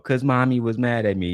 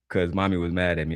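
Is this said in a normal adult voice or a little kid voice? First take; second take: little kid; normal adult. First: It is said in a high childlike voice. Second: It is said in a normal adult voice.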